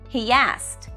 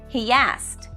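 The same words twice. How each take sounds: No difference in how they are said.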